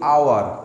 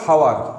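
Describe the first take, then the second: First: The word begins with a vowel, no h sound. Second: The word begins with an audible h sound. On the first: The speaker calls it right. "আমরা বলি আওয়ার" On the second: The speaker calls it wrong. "আমরা কখনো বলি না হাওয়ার"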